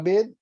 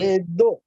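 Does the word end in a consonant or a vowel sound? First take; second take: consonant; vowel. First: The word ends on the d consonant. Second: The word ends with an added o vowel. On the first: "Bed Puran ka bed" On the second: "D become will become D O"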